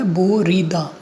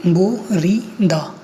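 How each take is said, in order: First: Said in the usual way. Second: बोरीदा drawn out slowly, bo-ri-da; syllable by syllable. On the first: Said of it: "पहला जो लिखा हुआ है". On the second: Shown as a demonstration. Teacher introducing a new Korean word, बोरीदा slowly syllable by syllable. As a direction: read बोरीदा slowly with a gap after each syllable. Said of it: "इस slide में अपन पढ़ेंगे".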